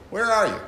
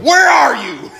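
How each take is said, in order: First: Said in the usual way. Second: High, loud thundering demand; mock minister shouting God's words; booming God. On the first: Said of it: "think about the tone". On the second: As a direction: roar it like an angry God. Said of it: "he gets to God coming to Adam".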